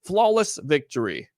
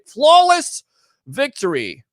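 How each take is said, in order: First: Lower, softer announcer take; game announcer, low and menacing; Mortal Kombat announcer. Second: Shouted game announcer line; Mortal Kombat call. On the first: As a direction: growl it like the fighting game voice. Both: Retold or imitated. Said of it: "it's like Mortal Kombat".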